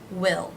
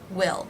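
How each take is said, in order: First: The vowel is short, as in 'sit'. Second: The vowel is short, as in 'sit'.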